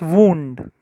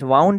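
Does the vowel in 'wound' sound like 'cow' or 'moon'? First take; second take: moon; cow. First: The vowel sounds like the one in 'moon'. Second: The vowel sounds like the one in 'cow'. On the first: It is an injury on the body. "when you get it on your body, it's wound" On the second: It is the past tense of wind, as in turning a clock. "It will be pronounced as wound over here"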